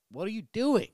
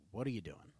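First: Much higher, louder, incredulous repeat; exasperated outburst. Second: Said in the usual way. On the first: Retold or imitated. Refusing the old lady's wafers, high loud exasperated cry. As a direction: blurt it out, high and loud in disbelief. Quoting himself to old lady.

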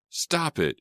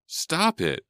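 First: High frantic shriek. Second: Even higher desperate shriek; shrieking again. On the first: Sydney shrieking at the two fighters, frantic. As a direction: shriek to make them stop. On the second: Sydney shrieking again at the fighters, desperate. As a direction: shriek it once more, louder. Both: A narrator's reading. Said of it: "she shrieked".

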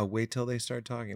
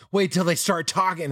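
First: Said in the usual way. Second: Laughing, knowing jab, pitched up; mock the know-it-all parent with a laugh; smug parent. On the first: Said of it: "It's like, yeah". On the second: Imitating smug parents warning him, laughing. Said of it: "They might be like".

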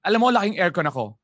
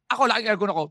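First: Said in the usual way. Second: Mock boast. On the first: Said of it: "Sasabihin mo, chopper". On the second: Shown as a demonstration. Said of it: "Pag sinabi kong".

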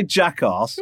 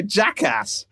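First: "Jackass" said the American way, flat ass. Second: "Jackass" said the British way, broad arse; British Jackarse. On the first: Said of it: "you can't say". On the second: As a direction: say "Jackass" like a Brit. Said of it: "you also can't say". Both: Shown as a demonstration.

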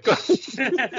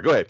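First: Breaking into a high laugh. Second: Said in the usual way. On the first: Real, not acted. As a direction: say it while laughing. Apologises after awkward joke.

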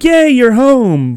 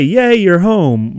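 First: High, loud, slow squeal of delight; talking puppy greeting its owner, overjoyed. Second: Slow, lightly excited greeting; talking puppy greeting its owner, mildly happy; a touch of puppy joy. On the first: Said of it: "he's like a puppy that can talk". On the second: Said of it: "now they can actually say". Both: Pretend.

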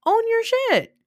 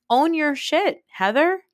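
First: Very high, exasperated cry; escalated scolding. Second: High-pitched, insistent telling-off; exasperated scolding. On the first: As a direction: pitch it way up, then drop sharply at the end. Repeats the scolding, more heatedly. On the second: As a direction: scold in a raised pitch, question-like lift at the end. Scolding Heather in direct address. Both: Acted.

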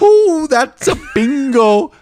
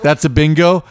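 First: High, gleeful squeal, drawn out; hammed-up high-pitched movie villain exclamation; Christoph Waltz. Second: Said in the usual way. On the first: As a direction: stretch it out in a very high, delighted voice. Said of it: "This is Christoph Waltz". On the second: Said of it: "Is that the way you say it?".

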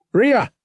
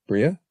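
First: Sharp, high shout of a name; yelling. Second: Said in the usual way. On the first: A narrator's reading. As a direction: yell out to get a crewmate's attention. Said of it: "Han yelled".

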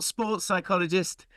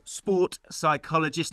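First: "sports psychologist" with an s on "sports"; "sports psychologist", the wrong form with s; wrong term. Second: "sport psychologist" with no s on "sport"; "sport psychologist", the right form, no s; correct term. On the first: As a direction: say "sports" with the s, as the mistake. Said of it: "I've been put right on that one". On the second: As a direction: say "sport" singular, then "psychologist". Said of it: "not sports psychologist". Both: Shown as a demonstration.

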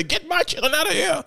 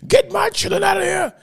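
First: High mock call to get the kids out; first take, a high imitated plea; retold yell. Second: Retold shout. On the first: Father in handcuffs calls out to officers, high imitated plea. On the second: Father in handcuffs yells at officers to take the kids, mock shout. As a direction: push it up into a full mock yell.

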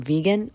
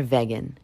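First: "vegan" said as VEE-gan; first syllable of "vegan" like "vee"; usual pronunciation. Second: "vegan" said as VEG-an; first syllable of "vegan" like "veg"; alternative pronunciation. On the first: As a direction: say "vegan" with a long ee. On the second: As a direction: say "vegan" with a short e. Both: Shown as a demonstration. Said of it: "Is it vegan or vegan".

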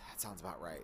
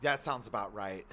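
First: Soft, low muttered repeat; quiet. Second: Said in the usual way. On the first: Real, not acted. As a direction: let it fall away under the breath. Repeated, second fades.

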